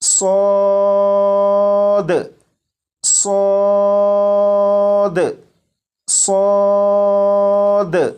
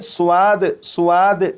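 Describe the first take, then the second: First: The vowel is a plain long 'a' sound. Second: The vowel is preceded by a 'w' glide. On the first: The speaker calls it right. "बल्कि अलिफ की आवाज के साथ" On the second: The speaker calls it wrong. "नहीं पढ़ेंगे, यानी वाओ की आवाज के साथ नहीं"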